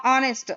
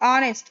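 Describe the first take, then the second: First: The word begins with a vowel sound. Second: The same.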